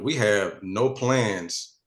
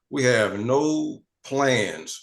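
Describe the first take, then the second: First: It is said at normal speed. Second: It is said very slowly and deliberately.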